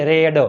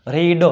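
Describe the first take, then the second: First: રેડ with a short e vowel; past-tense pronunciation. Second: રીડ with a long ee vowel; long-ee pronunciation. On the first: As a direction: say રેડ like the colour red. (રેડ, ટૂંકા એ સાથે ઉચ્ચાર) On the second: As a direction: say રીડ to rhyme with "need". (રીડ, લાંબા ઈ સાથે ઉચ્ચાર) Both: Shown as a demonstration. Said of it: "ઉચ્ચારમાં ફેરફાર થાય છે".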